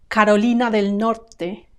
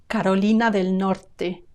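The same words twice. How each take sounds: The two takes are said the same way.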